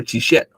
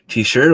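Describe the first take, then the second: First: T-shirt said slowly another way, as an alternative; t-shirt with an altered second syllable; alternate pronunciation. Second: Said in the usual way. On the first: Shown as a demonstration. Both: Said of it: "T-shirt or t-shirt?".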